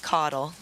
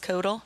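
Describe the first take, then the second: First: The first vowel is like the vowel in 'bottle'. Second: The first vowel is unlike the vowel in 'bottle'. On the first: The speaker calls it right. "it should be Caudal, like bottle" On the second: The speaker calls it wrong. "Do you know for a fact it's Kodal?"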